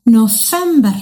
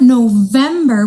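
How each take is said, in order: First: "November" with an F in place of the V; Somali F. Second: "November" with a voiced V; English V. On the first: Teacher showing kids the Somali month, "November" with an F. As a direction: say "November" as "Nofember". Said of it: "we say with the F". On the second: Teacher contrasting English with Somali, "November" with a V. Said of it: "Not November with the V". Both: Shown as a demonstration.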